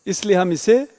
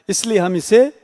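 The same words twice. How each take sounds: The two takes are said the same way.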